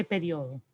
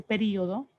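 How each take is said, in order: First: "periodo" as pe-RIO-do; disfavoured diphthong form. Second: "periodo" as pe-RÍ-o-do; preferred hiatus form. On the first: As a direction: run io together in "periodo", stressing the o. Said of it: "A mí no me agrada". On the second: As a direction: split i and o in "periodo", stressing the i. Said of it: "me gusta más decir". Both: Shown as a demonstration.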